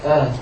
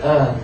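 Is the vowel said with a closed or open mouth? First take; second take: closed; closed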